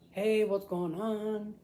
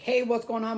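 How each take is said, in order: First: It is relaxed, with natural conversational pauses. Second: It is rushed, with no natural pauses.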